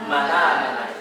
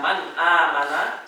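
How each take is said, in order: First: The n runs straight into the next vowel. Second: A glottal stop separates man from amana. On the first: "memindahkan harokat hamzah ke huruf sebelumnya" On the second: "Yang satu bacanya man amana"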